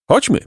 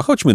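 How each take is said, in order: First: Short, firm agreement. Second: Said in the usual way. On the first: A narrator's reading. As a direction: say it firmly, with resolve. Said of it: "rzekł twardo Jacek".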